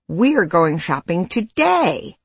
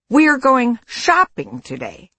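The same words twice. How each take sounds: First: The stress falls on the word today. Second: The stress falls on the word shopping. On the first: The point is when it happens. "emphasis on time" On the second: The point is what will be done. "emphasis on the activity"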